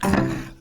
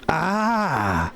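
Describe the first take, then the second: First: It sounds like a wince at a harsh taste. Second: It sounds like a pleased, satisfied sigh.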